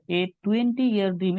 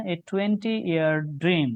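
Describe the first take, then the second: First: Slow reread of the phrase. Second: Slow read of the phrase. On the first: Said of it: "এটা সবই ঠিক আছে". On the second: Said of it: "first reading". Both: Shown as a demonstration.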